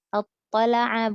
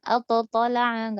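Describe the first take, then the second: First: Attala'a drawn out slowly with the t merged, no bounce; correct attala'a. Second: Attatala'a with an extra bounced ta sound; wrong bounced t. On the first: Teacher demonstrating the correct Attala'a. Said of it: "bukan attatala'a". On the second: Teacher demonstrating the wrong attatala'a. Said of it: "nggak dipantul". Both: Shown as a demonstration.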